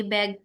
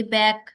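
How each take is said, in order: First: "बैग" lower, with no stay on the voiced G; unheld final G. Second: "बैक" with a slight stay on the voiceless K; held final K. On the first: Teacher contrasting K and G sounds, "बैग" ended without a hold. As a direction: drop the pitch and finish "बैग" without lingering. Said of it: "हम लोग stay नहीं करेंगे". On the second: Teacher contrasting K and G sounds, "बैक" held slightly at the end. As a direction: linger a little on the end of "बैक". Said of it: "थोड़ा stay करेंगे". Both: Shown as a demonstration.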